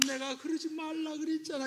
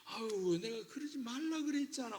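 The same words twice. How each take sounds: First: Higher, limp and spineless whine; a parent scolding like someone with no bones; limp, boneless. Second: Exasperated sigh. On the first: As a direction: let the words droop with no force. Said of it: "뼈 없는 사람처럼". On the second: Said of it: "어떤 거 더 좋아요?". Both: Shown as a demonstration.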